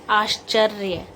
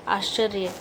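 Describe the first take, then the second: First: आश्चर्य with clear aash-charya; correct pronunciation. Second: आश्चर्य said as aacharya without the sh; wrong pronunciation. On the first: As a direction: sound the sh in आश्चर्य. (आश्चर्य का शुद्ध उच्चारण) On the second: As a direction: drop the sh in आश्चर्य. (आश्चर्य का गलत उच्चारण) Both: Shown as a demonstration. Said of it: "इसको हम बोलेंगे".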